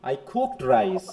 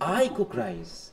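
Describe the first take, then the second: First: The stress falls on the word cooked. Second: The stress falls on the word I. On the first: The cooking was actually done. "কুকের উপর" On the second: The speaker is the one who cooked. "আমি"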